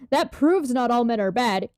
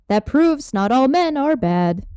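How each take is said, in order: First: It is said in a plain, natural voice. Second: It is said in a put-on robotic character voice.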